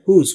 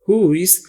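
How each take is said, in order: First: Who and is are joined into one syllable. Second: Who and is are said as two words. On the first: "बोलने वाली English में हुज" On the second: "हु इज है"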